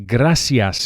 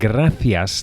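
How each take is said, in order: First: The c is pronounced as an s sound. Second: The c is pronounced as a th sound. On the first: This is how it is said in Latin America. "you'll hear gracias in Latin American countries" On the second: This is how it is said in mainland Spain. "gracias that you'll hear in most of mainland Spain"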